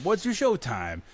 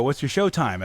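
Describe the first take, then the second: First: "your" stretched high and slow; stress on your. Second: Said in the usual way. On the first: Retold or imitated. To the stranger at the cinema, leaning on "your". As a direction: lean hard on "your", drawn out.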